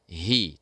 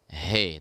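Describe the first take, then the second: First: The vowel is a close ee sound. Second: The vowel is an open e sound. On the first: The speaker calls it right. "tapi hi, tetap hi" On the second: The speaker calls it wrong. "jangan sampai kita baca he"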